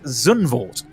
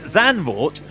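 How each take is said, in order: First: The name is said in a posh broadcaster style. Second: The name is said in a plain, natural way. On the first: The speaker calls it wrong. "go with the whole B B C way" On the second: The speaker calls it right. "which is how you say it"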